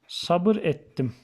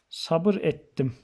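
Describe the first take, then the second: Both takes have the same delivery.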